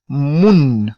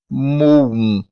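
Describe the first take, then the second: First: The ending has a clearly pronounced N consonant. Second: The ending is a nasal vowel without a clear N. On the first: The speaker calls it right. "Em crioulo haitiano se diz mun" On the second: The speaker calls it wrong. "em português aqui diríamos apenas moum"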